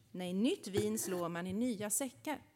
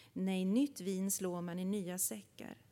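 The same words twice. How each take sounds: No difference in how they are said.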